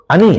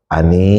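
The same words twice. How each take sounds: First: The name is called loudly and harshly. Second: The name is called softly and gently. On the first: "itu berbeda maknanya"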